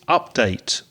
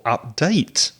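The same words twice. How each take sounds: First: The stress is on the first syllable. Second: The stress is on the second syllable. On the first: The word is used as a noun. "changing stress with verb and noun use" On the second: The word is used as a verb. "update is the verb"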